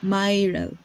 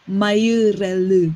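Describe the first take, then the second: First: The name is said in the speaker's own way. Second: The name is said in a Korean accent. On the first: This is how the name really sounds. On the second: This is how locals struggle to say it.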